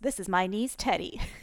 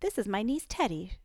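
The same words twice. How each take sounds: First: It is read in a put-on male voice. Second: It is read in the reader's own voice.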